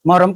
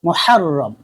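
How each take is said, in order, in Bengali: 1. নামটি দৈনন্দিন বাংলা রূপে বলা হচ্ছে। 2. নামটি পূর্ণ আরবি রূপে বলা হচ্ছে। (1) "যেটাকে আমরা বাংলায় বলি মহরম? না, মহরম কই না" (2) "শুদ্ধভাবে বললে আল মুহাররম"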